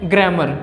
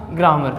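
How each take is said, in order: First: ग्रामर said as "gre-mer", the first vowel short and close to e; correct pronunciation. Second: ग्रामर said as "graa-ma", the first vowel an open long aa; wrong pronunciation. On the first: Teacher showing students the correct way, ग्रामर as "gre-mer". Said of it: "सही उच्चारण होता है". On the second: Teacher showing students the mistake, ग्रामर as "graa-mar". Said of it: "और गलत रहेगा". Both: Shown as a demonstration.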